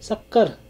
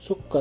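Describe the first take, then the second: First: The first vowel is an a sound. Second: The first vowel is a u sound. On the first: This is the Hindi form of the word. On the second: This is the Arabic form of the word.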